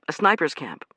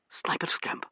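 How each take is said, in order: First: Said in the usual way. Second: Breathy unvoiced question; hushed startled echo. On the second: Startled man echoing Joe's words, hushed. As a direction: echo it back under your breath, startled.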